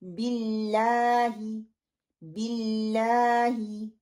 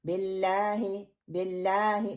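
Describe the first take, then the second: First: बिल्लाही slowly with a held "laa" and clear "bi"; the corrected slow बिल्लाही; correct long a. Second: बिल्लाही clipped as "belahe", the "aa" too short; the mistaken short बिल्लाही; wrong quick reading. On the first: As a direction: stretch बिल्लाही's "aa" to two counts. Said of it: "no". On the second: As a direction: say बिल्लाही fast with a short "laa". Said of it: "no, बिल्लाही". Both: Shown as a demonstration.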